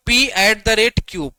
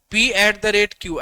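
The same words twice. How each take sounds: First: "P at the rate Q" read out slowly, each letter clear. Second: Very slow repeat. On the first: Teacher reading notation to students, slow and clear. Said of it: "reads notation to class". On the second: Teacher repeating notation for students, very slow and deliberate. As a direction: spell the notation out very slowly so it sinks in. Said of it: "repeats notation even slower". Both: Shown as a demonstration.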